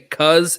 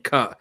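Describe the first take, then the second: First: The word ends with a z sound. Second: The word ends without a z sound. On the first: "either is a Z" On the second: "or there is not"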